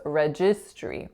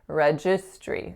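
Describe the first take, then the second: Both takes have the same delivery.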